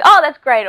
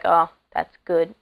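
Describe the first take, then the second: First: High, loud gushing "Oh, that's great"; over-the-top Aussie enthusiasm on "Oh, that's great"; enthusiastic. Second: Said in the usual way. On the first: Shown as a demonstration. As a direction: burst out "Oh" big and bright. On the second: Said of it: "nothing's just plain".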